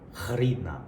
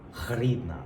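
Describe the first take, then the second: The two takes are said the same way.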